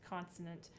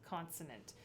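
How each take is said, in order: The two takes are said the same way.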